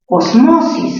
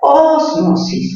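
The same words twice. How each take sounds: First: The stress falls on the syllable 'mo'. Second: The stress falls on the syllable 'os'. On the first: "mayor fuerza en mo" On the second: "mayor fuerza en os"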